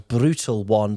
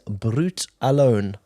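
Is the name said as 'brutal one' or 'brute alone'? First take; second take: brutal one; brute alone. First: The name is split as brutal plus one. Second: The name is split as brute plus alone. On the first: The speaker calls it wrong. "I've been pronouncing this wrong because I read this as Brutal One" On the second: The speaker calls it right. "but apparently this is Brute Alone"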